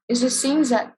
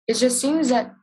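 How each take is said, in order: No difference in how they are said.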